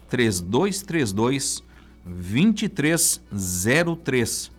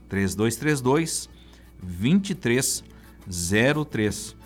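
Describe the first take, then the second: Both takes have the same delivery.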